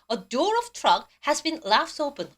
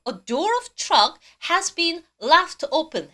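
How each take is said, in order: First: Very slow, deliberate English; slow repeat reading. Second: Very slow, careful English; slow model reading. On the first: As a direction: repeat slowly for the class. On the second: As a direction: read it slowly for students. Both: Shown as a demonstration. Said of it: "발음하고 계세요?".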